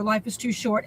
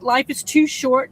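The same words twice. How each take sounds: First: Much softer, lower repeat of "Life is too short"; softer echo. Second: Slow, firm stress on "too"; emphatic. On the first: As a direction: let "Life is too short" drop to a soft, low echo. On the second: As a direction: lean hard on "too" in "Life is too short", said slowly. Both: Shown as a demonstration. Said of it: "repeated plea to viewers".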